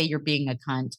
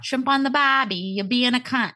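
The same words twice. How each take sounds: First: Said in the usual way. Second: Higher-pitched, badly faked Aussie accent; bad Australian accent. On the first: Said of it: "I don't know how to say". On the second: Shown as a demonstration. Host trying the accent after admitting she can't, bad Australian accent. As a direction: have a failed go at Australian. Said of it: "I can't do an Australian accent".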